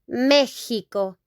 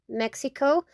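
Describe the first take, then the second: First: The middle consonant sounds like 'h'. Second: The middle consonant sounds like 'ks'. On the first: "in Spanish, Mexico. Like H" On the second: "Mexico in English"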